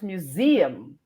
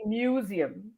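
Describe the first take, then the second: First: "museum" as myoo-ZEE-um; middle-stressed "museum"; correct stress. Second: "museum" as MYOO-zi-um; common mispronunciation. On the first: Shown as a demonstration. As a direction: slowly lift ZEE in "museum". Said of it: "but it's museum". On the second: Retold or imitated. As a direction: stress the start of "museum". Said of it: "a lot of us say museum".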